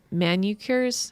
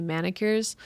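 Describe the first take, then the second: First: Manicures stumbled out slowly as "MAN-you-cures"; mispronounced manicures. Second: Manicures said quickly as "MAN-ih-cures", softer; corrected manicures. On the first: Comic describing dad's habits, mispronounced manicures as "man-you-cures". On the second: Comic checking the word mid-story, manicures corrected to "MAN-ih-cures". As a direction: say manicures with a short "ih" in the middle. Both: Real, not acted. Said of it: "how do you say, manicures".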